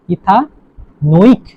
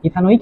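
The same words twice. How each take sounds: First: ইথানোইক very slow, ইথা then a long নোইক; slow split pronunciation. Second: Said in the usual way. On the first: Shown as a demonstration. Teacher showing how the acid is pronounced, slowly split. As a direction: stretch ইথানোইক in two parts with a pause between. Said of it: "উচ্চারণ কি হবে তাহলে". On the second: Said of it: "ইথা কি হয়ে যাবে".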